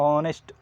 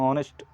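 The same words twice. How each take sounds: Both takes have the same delivery.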